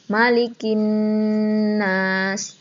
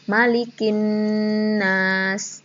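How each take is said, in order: First: The n is held long with a nasal hum. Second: The n is held long with a nasal hum.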